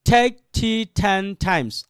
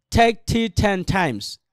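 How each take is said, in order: First: Slow, evenly spaced "take tea ten times"; slow reading. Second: "take tea ten times" a little quicker, words closer together; picking up speed. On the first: Teacher has students read it gently first, slow and measured. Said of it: "আস্তে পড়েন". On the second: Teacher asks students to add speed, a brisker take. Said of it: "এরপর আরেকটু গতি বাড়ান". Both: Shown as a demonstration.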